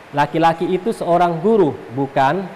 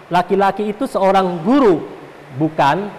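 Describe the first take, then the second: No difference in how they are said.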